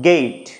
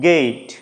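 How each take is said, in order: Both takes have the same delivery.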